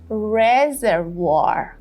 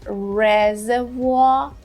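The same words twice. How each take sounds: First: It is said with an American accent, R-sounds clear. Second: It is said with a British accent, R-sounds dropped. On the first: "in the American pronunciation" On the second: "for the British one"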